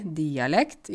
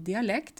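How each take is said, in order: First: DIALEKT slow, weight on the first syllable; dialect stress. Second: Said in the usual way. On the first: Shown as a demonstration. Teacher showing home pronunciation, first-syllable stress on DIALEKT. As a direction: stretch DI-alekt, stressed up front. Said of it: "så sier vi dialekt". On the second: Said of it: "ikke dialekt".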